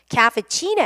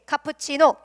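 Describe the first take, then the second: First: It is said with English vowels and stress. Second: It is said with a flat Korean pronunciation. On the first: The speaker calls it right. "이때는요" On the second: The speaker calls it wrong. "자신 있게 카푸치노 이래요. 못 알아듣는 외국인이 있을 수 있습니다"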